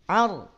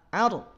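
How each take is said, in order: The two takes are said the same way.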